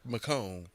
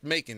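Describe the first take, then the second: First: The last syllable sounds like 'cone'. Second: The last syllable sounds like 'con'. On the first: The speaker calls it right. "It's pronounced Macone" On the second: The speaker calls it wrong. "it's not pronounced Macon"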